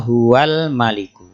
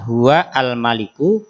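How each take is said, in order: First: The 'a' is dropped and the words run together. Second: The 'a' before 'maliku' is pronounced separately. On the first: The words are joined without a stop. "ketika disambungkan" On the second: This is the original form of the words.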